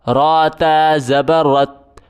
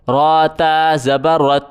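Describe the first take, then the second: No difference in how they are said.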